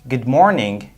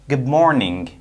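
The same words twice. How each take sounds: First: The end of 'good' is a d sound. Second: The end of 'good' is a b sound. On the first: "the d sound becomes b sound"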